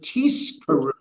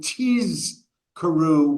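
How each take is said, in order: First: The middle consonant is an s sound. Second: The middle consonant is a z sound. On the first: You shall earn a reward. The speaker calls it wrong. "you mispronounce it" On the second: You shall remember. The speaker calls it right. "with a z sound rather than with an s sound"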